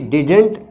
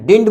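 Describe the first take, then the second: First: Both d sounds in the word are pronounced. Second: The middle d sound is dropped.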